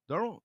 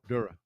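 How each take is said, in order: First: The name ends with a clear final 'rell' sound. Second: The name sounds like the start of 'Duracell'. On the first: The speaker calls it wrong. "did I say it right? That's close" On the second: The speaker calls it right. "Pronounced like you would say Duracell batteries"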